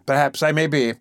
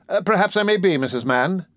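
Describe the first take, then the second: First: Modest, pleased beadle; lightly pleased and pompous; gratified beadle. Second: Gratified beadle. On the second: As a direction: repeat it preening with pride. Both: A narrator's reading. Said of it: "evidently gratified".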